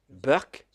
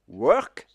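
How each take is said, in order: First: It starts with a B sound, Indian English. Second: It starts with a W sound, standard English.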